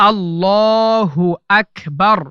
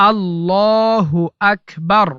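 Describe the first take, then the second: No difference in how they are said.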